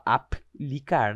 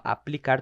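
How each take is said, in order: First: "aplicar" broken as ap - licar, pause after the P; wrongly split. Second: "aplicar" run together, PL kept in one syllable; all together. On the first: Teacher showing how not to divide "aplicar", split ap-licar. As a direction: say "aplicar" in two pieces, ap, then licar. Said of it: "Fala aplicar tudo junto". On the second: Teacher showing the inseparable PL, "aplicar" said all together. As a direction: say "aplicar" as a-plicar, no break after P. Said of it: "tudo junto". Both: Shown as a demonstration.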